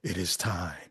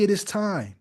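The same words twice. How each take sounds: First: Very deep, hushed voice of God; James Earl Jones. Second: Said in the usual way. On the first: Retold or imitated. Host mimicking the preacher as the Father, deep and hushed. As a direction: drop way down low and soft, solemnly. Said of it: "you know, James Earl Jones". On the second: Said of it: "you've never heard God say".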